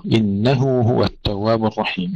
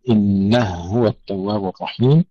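First: إنه هو with each ha said separately; both ha clear. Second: إنه هو with the two ha merged into one. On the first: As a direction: keep apart the ha of إنه and of هو. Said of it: "نحقق الهاء". (إظهار الهاءين في إنه هو) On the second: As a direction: run the ha of إنه into هو. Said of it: "للسوسي فإننا ندغم". (إدغام الهاءين في إنه هو) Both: Shown as a demonstration.

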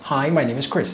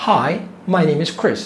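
First: Said in the usual way. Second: Each word spelled out slowly; drawn-out model sentence for learners; slow teaching demo. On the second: Shown as a demonstration. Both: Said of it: "تعال نسمع".

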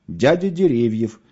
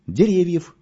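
First: «Дядя» stressed and drawn out slowly, «Деревьев» after; slowly repeat, leaning on «Дядя». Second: Name squeezed out on a strained grunt, higher. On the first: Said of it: "повторил шофёр". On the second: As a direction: groan the name out as if it hurts. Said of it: "кряхтя ответил Мишка". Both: A narrator's reading.

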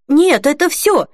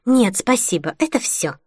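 First: Much higher, apologetic reply; guilty. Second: Through gritted teeth. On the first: Customer glancing at Holly as he answers, guilty. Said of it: "сказал мужчина с виноватым видом". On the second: Holly answers the sarcastic cashier, through gritted teeth. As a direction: force politeness through the teeth. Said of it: "процедила она сквозь зубы". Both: A narrator's reading.

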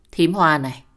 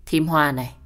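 First: Loud, cutting address to her sister-in-law; sharp angry call. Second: A slightly deeper, steady call of her name; low-voiced warning. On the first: Acted. Wife confronts sister-in-law angrily. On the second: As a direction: drop the voice a little and speak evenly. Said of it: "trầm giọng nói với con nhỏ kia".

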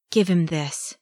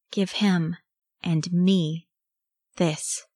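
First: Understated fierce demand. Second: Fierce, word-by-word demand with pauses; snapping the words. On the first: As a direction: say it with contained ferocity. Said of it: "he said fiercely". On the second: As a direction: bite off each part separately. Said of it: "his teeth snapping the words". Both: A narrator's reading.

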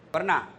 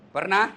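First: "Pernah?" asked once with a falling tune; questioning the crowd. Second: "Pernah?" louder and higher with a rising tune; pressing the crowd. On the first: Preacher asking the congregation, "Pernah?" with a falling tune. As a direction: drop the pitch on "Pernah?". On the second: Preacher pressing the congregation again, "Pernah?" louder and rising. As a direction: push "Pernah?" up louder, demanding an answer. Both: Shown as a demonstration. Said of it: "Pernah lihat orang meninggal?".

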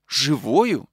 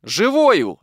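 First: Said in the usual way. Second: A higher, louder triumphant answer; stranger's ringing reply; loud exclamation. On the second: A narrator's reading. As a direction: announce the good news from the doorway. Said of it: "ответил ей незнакомый голос".

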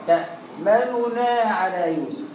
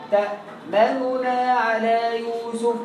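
The two takes are said the same way.

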